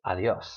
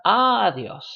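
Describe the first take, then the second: First: "adiós" as a-DYÓS, final syllable stressed. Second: "adiós" as Á-dios, first syllable punched; stress on A. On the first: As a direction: land on the end of "adiós". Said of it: "with the stress on the yo". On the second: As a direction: hit the opening A of "adiós". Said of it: "Not on the a". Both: Shown as a demonstration.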